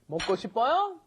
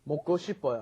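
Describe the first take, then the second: First: The pitch rises at the end. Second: The pitch falls at the end. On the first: It asks whether someone wants to eat. "You just rise in intonation" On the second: It states a wish to eat. "I want to eat"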